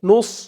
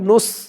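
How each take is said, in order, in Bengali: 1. s উচ্চারণটা ভারী, মুখটা ভরপুর হয়ে যায়। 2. s উচ্চারণটা হালকা ও সরু। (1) "বলতে হবে নুস, মুখটা একটু ভরপুর হয়ে যাবে" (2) "নুস এমন বলা যাবে না, এমন বললে কিন্তু সিনের উচ্চারণ হয়ে যাবে"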